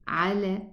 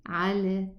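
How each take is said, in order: The two takes are said the same way.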